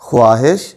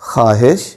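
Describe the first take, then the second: First: The w sound after kh is fully pronounced. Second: The w sound after kh is barely heard. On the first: The speaker calls it wrong. "वाव की आवाज़ के साथ करेंगे तो वो गलत होगा" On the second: The speaker calls it right. "दुरुस्त तलफ़्फ़ुज़ ये होगा"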